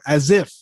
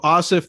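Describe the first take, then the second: First: The middle consonant is a Z sound. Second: The middle consonant is an S sound. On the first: "Some people put a Z in there" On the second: "that's what you call me"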